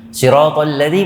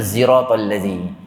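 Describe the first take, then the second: First: The first word begins with an S sound. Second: The first word begins with a Z sound.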